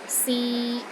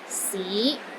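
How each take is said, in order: First: The pitch is steady in the middle. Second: The pitch rises from low to middle. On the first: It means to try. "pronounced in the middle of your range and it is steady" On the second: It means city. "It starts low, then rises to the middle of your range"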